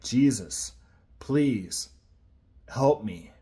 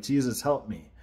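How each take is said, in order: First: "Jesus, please help me" pleaded from the heart, with pauses between the words; each word slow and earnest: "Jesus", a pause, "please", a pause, "help me"; sincere plea. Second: "Jesus, help me" tossed off lightly, with no conviction; casual, half-hearted plea. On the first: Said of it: "with all of my heart and sincerity". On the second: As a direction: say "Jesus, help me" quickly, as if it were nothing. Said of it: "You can't just be like". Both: Shown as a demonstration.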